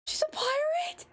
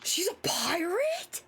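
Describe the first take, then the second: First: Squealed, much higher question; shocked high cry. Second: Breathless whispered gasp of surprise. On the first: Learning the killer is a pirate, a high shocked squeal. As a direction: shriek it in delighted disbelief. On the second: Reacting to the pirate lore, a gasped whisper. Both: Real, not acted.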